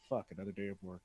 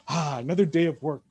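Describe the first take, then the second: First: It sounds weary and dreading. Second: It sounds content and happy.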